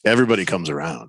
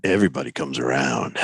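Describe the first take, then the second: First: Low, menacing calm; ominous. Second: Very low, sinister promise; ominous. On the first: Real, not acted. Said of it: "That was almost ominous". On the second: Pretend. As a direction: deliver it like a movie villain. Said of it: "Do that again. Just say it like that".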